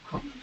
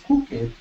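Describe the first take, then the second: First: The ending joins the word as one syllable. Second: The ending is said as an extra syllable. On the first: The speaker calls it right. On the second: The speaker calls it wrong.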